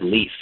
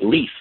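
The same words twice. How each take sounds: First: It is said calmly. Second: It is said excitedly.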